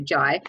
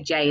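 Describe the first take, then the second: First: The name rhymes with 'eye'. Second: The name rhymes with 'day'. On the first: The speaker calls it right. "spelled J A I, so Jai" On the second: The speaker calls it wrong. "loads of people say J and it's not that"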